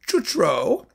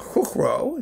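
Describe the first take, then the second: First: The name is pronounced with English sounds. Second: The name is pronounced with Czech sounds.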